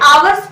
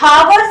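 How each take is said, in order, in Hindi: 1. शब्द की शुरुआत सीधे स्वर से होती है। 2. शब्द की शुरुआत h ध्वनि से होती है। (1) "आवर्स पढ़ा जाता है" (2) "इसे हावर्स नहीं"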